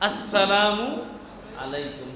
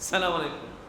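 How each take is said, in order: First: The opening 'as' sound is clearly included. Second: The opening 'as' sound is dropped. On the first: The speaker calls it right. "বরং এখানে হামজা আছে, আস" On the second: The speaker calls it wrong. "এমন ভাবে সালাম দেয় যে উচ্চারণই হয় না"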